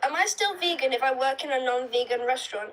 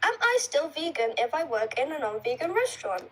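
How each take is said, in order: First: It is read fast without pauses. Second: It is read more slowly with pauses.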